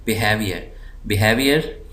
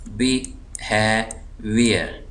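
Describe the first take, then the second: First: behaviour joined up, हे pressed; stress on HAVE. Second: behaviour very slow, in separate syllables. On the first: Teacher reading the word whole, stress on हे in behaviour. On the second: Teacher dividing the word for students, slow split syllables. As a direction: break behaviour into बि, हे, wear with pauses. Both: Shown as a demonstration. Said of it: "ज़ोर दे रहा हूँ".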